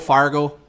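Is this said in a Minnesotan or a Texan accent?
Minnesotan. It is said in a Minnesotan accent. "they're like, oh"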